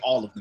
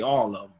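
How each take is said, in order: First: 'Them' is said in full. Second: 'Them' is reduced to 'em', Florida style.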